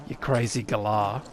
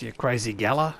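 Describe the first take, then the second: First: "galah" said guh-LAR, stress on the end; "You crazy galah" with Aussie guh-LAR; Aussie "galah", long second syllable; Australian galah. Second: "gala" said GAL-uh, stress on the front; American GAL-uh for "gala"; American misreading. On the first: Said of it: "the Australian character was clearly voiced by an American". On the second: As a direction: read "gala" like the word for a party. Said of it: "but they read it as". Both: Shown as a demonstration.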